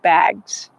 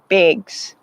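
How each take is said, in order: First: The vowel is an open A sound. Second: The vowel is raised, close to an 'i'. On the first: "I think you have to say like bags. Like the A sound" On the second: "but I do it like a bigs"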